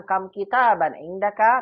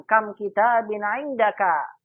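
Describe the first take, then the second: First: "Kam kitaban indaka" drawn out slowly with raised questioning pitch; question intonation. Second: "Kam kitabin indaka" slow, loud and lifted high; rising exclamatory intonation. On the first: Teacher showing students how a question sounds, question intonation. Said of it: "jangan lupa intonasinya ya. Kalau pertanyaan". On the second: Teacher demonstrating kam khobariyah to students, raised exclamatory intonation. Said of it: "Naik dia ke atas". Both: Shown as a demonstration.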